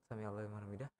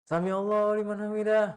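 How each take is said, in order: First: It is said quietly. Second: It is said loudly, almost shouted.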